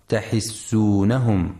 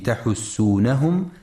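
First: تحسونهم with kasra on ha, tahissunahum; تحسونهم misread tahissunahum, i after the h; wrong reading demo. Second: تحسونهم with damma on ha, tahussunahum; تحسونهم said tahussunahum, u after the h; correct reading. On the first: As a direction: show the error: تحسونهم as tahissunahum. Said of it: "فلا يقرأ تحسونهم". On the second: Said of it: "لضم الحاء وعدم كسرها". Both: Shown as a demonstration.

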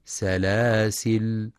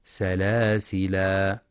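First: سلاسل stopped on a silent l, very slow; very slow سلاسل ending in l; alif dropped at pause. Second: سلاسلا stopped on a long final a, slow; slow سلاسلا ending in a; alif kept at pause. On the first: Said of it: "أو بحذفها". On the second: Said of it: "بإثبات الألف". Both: Shown as a demonstration.

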